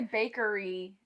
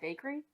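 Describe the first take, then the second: First: The word is said with three syllables. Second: The word is said with two syllables.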